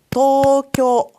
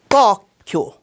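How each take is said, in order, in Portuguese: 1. É dito do jeito japonês, sem acento tônico. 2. É dito do jeito português, com acento tônico. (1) "se diz Tokyo e não Tóquio"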